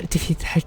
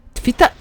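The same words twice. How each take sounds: First: Said in the usual way. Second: High, eager battle cry; excited cheer. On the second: Real, not acted. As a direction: egg yourself on mid-fight. Cheering on game combat.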